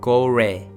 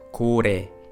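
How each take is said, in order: First: The middle consonant is like an English R. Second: The middle consonant is the Korean L sound. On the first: The speaker calls it wrong. "doesn't correspond to English L nor R" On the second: The speaker calls it right. "Korean L as its head consonant"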